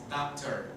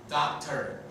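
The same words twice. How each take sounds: First: Doctor said softly, last O reduced to a schwa, dakter; doctor dicho suave, dakter; quiet English demo. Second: Doctor repeated a bit firmer, dakter with a schwa ending; doctor repetido con firmeza; firm English demo. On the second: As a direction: repeat doctor clearly for the class. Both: Shown as a demonstration. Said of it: "la última O suena E".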